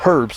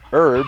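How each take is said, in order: First: It is said with a European pronunciation. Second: It is said with an American pronunciation.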